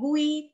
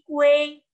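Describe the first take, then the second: First: The u goes straight into the i. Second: An e sound comes between u and i. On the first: The speaker calls it wrong. "bukan gui" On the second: The speaker calls it right. "tengah-tengahnya seperti ada huruf E"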